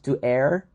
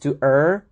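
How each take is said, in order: First: The word rhymes with 'hair'. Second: The word rhymes with 'fur'. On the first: The speaker calls it wrong. "not to air" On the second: The speaker calls it right. "the correct pronunciation is to er"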